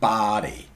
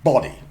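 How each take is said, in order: First: The vowel is an open unrounded 'ah'. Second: The vowel is a short rounded 'o'. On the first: "in American" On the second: "in British English"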